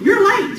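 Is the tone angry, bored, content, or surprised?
angry. It is said in an angry tone. The speaker is upset about the lateness. "So that's mad, right? I'm mad about it"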